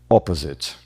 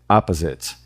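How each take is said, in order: First: The first vowel is a closed, rounded o sound. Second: The first vowel is an open, long a sound. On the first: "o britânico pode fechar a vogal O" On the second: "o americano vai abrir essa vogal num A longo"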